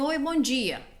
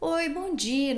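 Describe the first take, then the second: First: The greeting sounds curt and unfriendly. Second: The greeting sounds warm and friendly. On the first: The speaker calls it wrong. "Não vai chegar lá e falar assim" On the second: The speaker calls it right. "ó o tom de voz, entende?"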